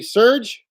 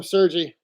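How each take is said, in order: First: Serge said as one syllable; official pronunciation. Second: Sergi said as two syllables; own pronunciation. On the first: Streamer giving a viewer's official name, Serge as one syllable. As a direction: say Serge without an ee on the end. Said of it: "official pronunciation of his name would be". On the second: Streamer giving his own name for a viewer, Sergi in two syllables. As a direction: say Sergi with an ee ending. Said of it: "but I just call him". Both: Shown as a demonstration.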